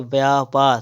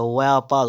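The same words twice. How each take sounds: First: व्यापार starting with b; closed-lip b opening व्यापार; wrong pronunciation. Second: व्यापार starting with v; correct pronunciation. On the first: Teacher reading the error, व्यापार with b. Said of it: "तो नहीं होता है". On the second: Teacher correcting, व्यापार with v. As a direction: glide into व्यापार on v. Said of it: "व्यापार होता है". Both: Shown as a demonstration.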